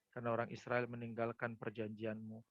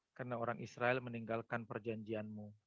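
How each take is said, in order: No difference in how they are said.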